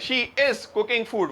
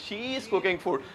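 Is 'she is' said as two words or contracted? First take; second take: two words; contracted. First: She is is said as two separate words. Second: She is is merged into one syllable. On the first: The speaker calls it wrong. "हम लोग कह रहे हैं" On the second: The speaker calls it right. "वो कह रहे हैं"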